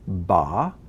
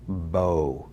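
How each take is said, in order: First: The vowel is an open ah sound. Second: The vowel is a rounded oh sound. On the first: "we pronounce them both as ah" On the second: "many times this word is pronounced bo"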